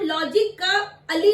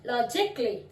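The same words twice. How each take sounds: First: लॉजिक का अली with the full अली syllable sounded; wrong full syllable. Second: लॉजिकली said LOJ-ik-lee, no अ between क and ली; silent a. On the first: Teacher shows the wrong लॉजिक का अली. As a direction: stretch out अली as a separate syllable. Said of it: "लॉजिक का अली नहीं बोलते". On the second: Teacher models लॉजिकली with a silent a. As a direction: swallow the a in लॉजिकली. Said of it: "ए silent हो गया". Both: Shown as a demonstration.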